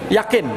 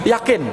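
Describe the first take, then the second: The two takes are said the same way.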